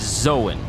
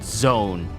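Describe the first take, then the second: First: The word is said with two syllables. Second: The word is said with one syllable. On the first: The speaker calls it right. "it's Zoan" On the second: The speaker calls it wrong. "It's not zone"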